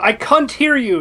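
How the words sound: Can't is said with a British vowel. "They go"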